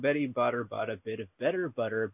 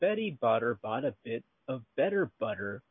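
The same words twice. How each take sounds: First: The phrase is read at a fast pace. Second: The phrase is read at a slow pace.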